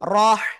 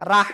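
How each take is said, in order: First: The r is said with a heavy, thick sound. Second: The r is said with a light, thin sound. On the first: The speaker calls it right. "মোটা আওয়াজে পড়তে হয়।" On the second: The speaker calls it wrong. "রাহ না"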